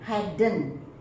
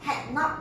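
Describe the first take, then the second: First: The words are joined into one contracted word. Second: Two separate words are said in full. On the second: "full forms"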